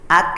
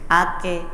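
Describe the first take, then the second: First: The k ends with no vowel after it. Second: The k is followed by a short e vowel. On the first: The speaker calls it right. "kalau kaf tidak terdengar vokal e, jadi bunyinya ak" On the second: The speaker calls it wrong. "bukan ke, ake"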